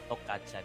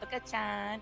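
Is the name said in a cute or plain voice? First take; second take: plain; cute. First: The name is said in a plain voice. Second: The name is said in a cute voice. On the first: The speaker calls it wrong. "we've been saying the support Toka-chan" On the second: The speaker calls it right. "you have to say it cuter, like"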